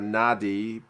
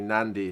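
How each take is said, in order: First: It is said without an n before d. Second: It is said with an n before d. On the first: The speaker calls it wrong. "it's written N A D I" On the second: The speaker calls it right. "but it's actually Nandi"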